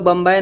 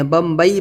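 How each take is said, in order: First: بمبئی said as "bambae", ending in an open "ae"; wrong pronunciation. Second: بمبئی said as "bambai", gliding into "ee"; correct pronunciation. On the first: Teacher shows what people do not say, "bambae" mispronunciation. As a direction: say بمبئی with a flattened "bae" instead of "ba-ee". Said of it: "ہم لوگ بمبئی نہیں بولتے ہیں". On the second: Teacher shows what people really say, "bambai" pronunciation. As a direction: end بمبئی on a clear "ba-ee". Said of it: "بمبئی بولتے ہیں نا". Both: Shown as a demonstration.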